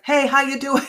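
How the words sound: It is said in a pushy, forceful way.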